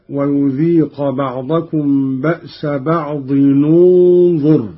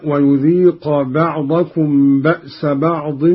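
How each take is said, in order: First: بعض linked to ننظر as "ba'dinunzur", u on the nun; damma on tanwin. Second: Said in the usual way. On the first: Shown as a demonstration. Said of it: "بضم أولى الساكنين". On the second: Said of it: "إذا وصلنا بعض بكلمة انظر".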